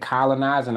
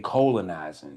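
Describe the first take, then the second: First: It is said with the usual pronunciation. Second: It is said with the word colon clearly heard. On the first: This is the ordinary way of saying the word. "People say colonizing" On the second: This is a pun linking colonizing to the colon. "I say colonizing"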